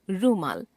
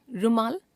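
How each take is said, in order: First: Said in the usual way. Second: रुमाल with short first उ, rising; wrong pronunciation. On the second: Shown as a demonstration. Teacher showing a common error, रुमाल with short first vowel. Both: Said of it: "अशुद्ध".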